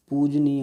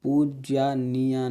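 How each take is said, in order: First: पूजनीय said louder, as पूज-नीय; teacher stresses the right पूजनीय, loud and firm; correct form said. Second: पूज्यानीया drawn out slowly as the wrong form; teacher voices the mistaken पूज्यानीया, each syllable given its time. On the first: Teacher corrects students to पूजनीय, said with emphasis. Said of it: "पूजनीय होता है". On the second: Teacher shows students the wrong पूज्यानीया, slow and deliberate. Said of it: "पूज्यानीया नहीं होता है". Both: Shown as a demonstration.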